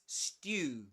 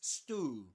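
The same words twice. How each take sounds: First: It is said in a British accent. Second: It is said in an American accent. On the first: "is pronounced in British English as stew" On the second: "but in American English it's pronounced as stew"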